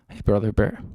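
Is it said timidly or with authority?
timidly. It is said meekly, without authority.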